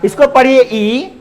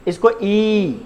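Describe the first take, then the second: First: Final ई kept to one beat, pitched up; short vowel demo. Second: ई held twice as long, softer; long vowel demo. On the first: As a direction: end on a brief, lifted ई. ("ई" ह्रस्व, छोटा बोलकर) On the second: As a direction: draw the ई out and let it fall. ("ई" दीर्घ, खींचकर) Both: Shown as a demonstration. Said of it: "दोनों को ई नहीं पढ़ सकते".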